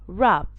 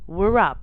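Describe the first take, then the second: First: The word begins without a W sound. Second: The word begins with a W sound. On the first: The speaker calls it right. "the W gets silent" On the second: The speaker calls it wrong. "not wrap"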